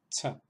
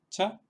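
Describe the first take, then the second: First: The consonant is said with a puff of air. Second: The consonant is said without a puff of air. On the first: "la misma consonante pero aspirada" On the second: "la primera de estas consonantes es la cha"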